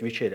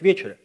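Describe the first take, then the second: First: The stress is on the second syllable. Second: The stress is on the first syllable. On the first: The speaker calls it wrong. "мы привыкли все говорить" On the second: The speaker calls it right. "а на самом деле правильно говорить"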